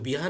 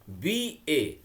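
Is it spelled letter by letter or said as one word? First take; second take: one word; letter by letter. First: The letters are run together into one word. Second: Each letter is said separately. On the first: The speaker calls it wrong. "बिहा नहीं ना बोलते हम लोग" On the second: The speaker calls it right. "बी letter बोले, फिर उसके बाद ए बोले"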